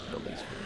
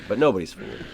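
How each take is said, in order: First: Whispered aside. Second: Said in the usual way. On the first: Shown as a demonstration. Streamer whispers a joke to his viewers. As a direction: hush it like a secret to the audience.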